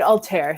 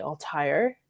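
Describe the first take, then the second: First: Altair as "al-TAIR"; president's pronunciation. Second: Altair as "al-TIRE"; reviewer's pronunciation. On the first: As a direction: rhyme Altair with "air", as the president said it. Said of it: "he was calling it". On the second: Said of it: "another reviewer saying it's definitely". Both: Retold or imitated.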